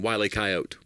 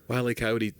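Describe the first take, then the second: First: Coyote is said with two syllables, no final ee. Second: Coyote is said with three syllables, ending in ee. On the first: The speaker calls it wrong. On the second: The speaker calls it right.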